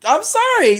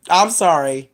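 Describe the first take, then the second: First: "I'm sorry." jumps far higher, incredulous; exasperated squeak. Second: Said in the usual way. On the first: Real, not acted. Exasperated outburst at stupid movie.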